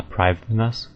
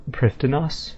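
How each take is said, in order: First: Prifddinas said "PRIVE-the-nus"; "Prifddinas" opening to rhyme with drive; official pronunciation. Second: Prifddinas said "PRIFT-en-oss"; questioning "Prifddinas", higher, with an f sound; speaker's failed reading. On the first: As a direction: say Prifddinas with long i and v. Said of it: "failed at pronouncing it correctly". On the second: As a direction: read Prifddinas with a short i and f. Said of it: "I failed at pronouncing it correctly". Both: Shown as a demonstration.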